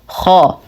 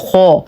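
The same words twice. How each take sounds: First: The lips stay unrounded and the sound flows out. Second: The lips are rounded and the sound is held in. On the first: The speaker calls it right. "والصواب خا خا" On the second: The speaker calls it wrong. "فلا نقول خا خير وهذا خطأ"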